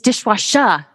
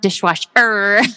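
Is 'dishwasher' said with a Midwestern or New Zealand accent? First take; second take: New Zealand; Midwestern. First: It is said with a New Zealand accent. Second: It is said with a Midwestern American accent. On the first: This is how the local child says it. The speaker calls it right. "it's dishwasher" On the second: This is how the visiting American says it. The speaker calls it wrong. "Like them calling out the Midwestern"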